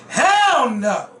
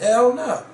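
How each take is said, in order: First: It is said in a harsh, hostile tone. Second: It is said in a light, casual tone. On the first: The refusal comes from contempt for the people asking. "they wasn't like, no, hell no" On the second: The refusal is only a joking, offhand answer. "I didn't hear nothing homophobic in her tone"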